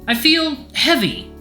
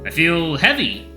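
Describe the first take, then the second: First: It is said in a lighter voice. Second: It is said in a heavier, deeper voice.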